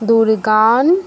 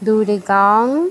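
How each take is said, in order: First: The final nasal is an n sound. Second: The final nasal is an ng sound.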